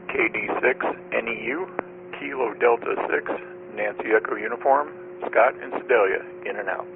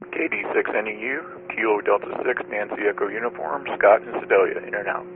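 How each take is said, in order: First: It is said more slowly. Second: It is said at a normal pace.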